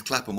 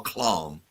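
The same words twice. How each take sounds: First: Said in the usual way. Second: "Clam" for Clapham, one long drawn-out syllable; jokey posh pronunciation. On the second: Shown as a demonstration. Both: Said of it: "as is Clapham or Clam".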